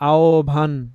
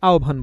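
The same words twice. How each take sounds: First: The vowel is fully pronounced. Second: The vowel is reduced and shortened. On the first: The speaker calls it wrong. "আহ্বান এরকম করে বলি না" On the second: The speaker calls it right. "একটু কমিয়ে ফেলছি"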